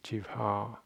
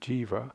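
First: A separate h sound follows the v. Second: The v is not followed by an h sound. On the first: The speaker calls it right. "it's a separate sound" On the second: The speaker calls it wrong. "instead of jiva"

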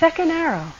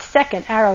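First: It is said in a gentle, kind tone. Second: It is said in a harsh, scolding tone. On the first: The speaker is noticing kindly, without judgment. The speaker calls it right. "With that tone of voice" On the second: The speaker is berating themselves. The speaker calls it wrong. "not second arrow, you stupid jerk"

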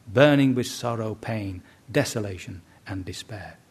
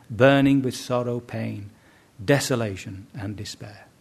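The two takes are said the same way.

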